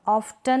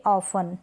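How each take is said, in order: First: ऑफ्टन with t after f; T sounded. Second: ऑफन with no t; silent T. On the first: Teacher showing the misreading, ऑफ्टन with t sounded. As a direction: say ऑफ्टन as "of-tan". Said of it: "नहीं पढ़ेंगे". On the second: Teacher correcting the misreading, ऑफन without t. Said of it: "क्या पढ़ेंगे". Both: Shown as a demonstration.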